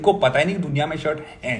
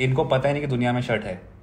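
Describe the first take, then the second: First: The final word is said with strong stress. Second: The final word is said without extra stress. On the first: The punchline lands and invites applause. The speaker calls it right. "है is where the applause comes" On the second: The punchline lands less strongly. The speaker calls it wrong. "It is still funny"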